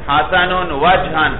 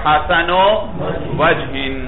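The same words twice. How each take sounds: First: The word wajh ends with an a vowel and n. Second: The word wajh ends with an i vowel and n. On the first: The noun is in the accusative case. "نصب" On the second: The noun is in the genitive case. "جر"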